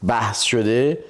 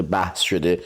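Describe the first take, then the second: First: «بحث شده» repeated with stress on «شده» and a rising end; insisting with a rise. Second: «بحث شده» settled low like a plain fact; stating it low. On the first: Husband insisting it was only a discussion, stressed rising. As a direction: lift «شده» to drive the correction home. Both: Real, not acted. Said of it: "دعوا نشده".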